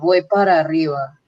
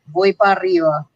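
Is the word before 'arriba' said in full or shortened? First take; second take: full; shortened. First: The word before arriba keeps both syllables. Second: The word before arriba is clipped to one syllable. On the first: It is the standard full form. "Instead of" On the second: It is casual, slangy speech. "They cut it off"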